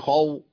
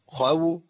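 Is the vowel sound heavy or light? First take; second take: heavy; light. First: The sound is heavy and full. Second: The sound is light and thin. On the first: The speaker calls it wrong. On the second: The speaker calls it right.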